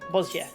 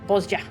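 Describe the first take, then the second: First: The middle consonant is a Y sound. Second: The middle consonant is a J sound.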